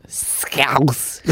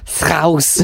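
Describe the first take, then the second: First: The word Scouse in a hammed-up Scouse accent; Scouse accent try. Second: "Scouse" pitched higher in an exaggerated Scouse accent; Scouse accent retry. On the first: Trying out a Scouse accent on one word. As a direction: stretch "Scouse" Liverpool style. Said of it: "exaggerate the odd word in that accent". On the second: Second attempt at a Scouse accent, higher. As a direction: have another go at a Scouse "Scouse". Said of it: "I can't do it". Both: Shown as a demonstration.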